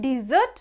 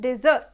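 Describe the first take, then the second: First: ডেজার্ট said di-ZURT, short i first; ডেজার্ট like English dessert; double-S pronunciation. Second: ডেজার্ট said DEZ-urt, e in the first syllable; ডেজার্ট like the sandy desert; single-S pronunciation. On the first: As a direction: say ডেজার্ট as "dih-ZURT", stress on the second syllable. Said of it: "double S থাকলে". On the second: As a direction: say ডেজার্ট as "DEH-zurt". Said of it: "একটা S থাকলে". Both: Shown as a demonstration.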